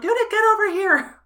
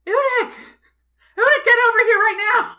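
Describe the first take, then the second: First: High loud scream out window; screaming name. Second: Loud high yell at a window; yelling child's full name. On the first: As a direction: scream it, frantic and oblivious. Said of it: "still screaming for you". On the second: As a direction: shout the name, furious parent. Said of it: "just yells". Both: Acted.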